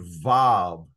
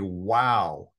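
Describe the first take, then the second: First: The word begins and ends with a V sound. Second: The word begins and ends with a W sound. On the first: "which is a V sound" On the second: "a W sound"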